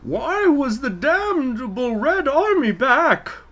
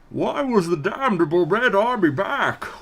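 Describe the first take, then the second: First: A muffled villain voice attempted with female pitch. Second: A muffled villain voice with ordinary male pitch. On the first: "now I'm going to try to do a female Bane voice" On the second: "We're just going to do the Bane voice"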